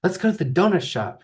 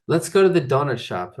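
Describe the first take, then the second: First: Voicing Shelly. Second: Precise. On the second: Retold or imitated. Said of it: "like, precise".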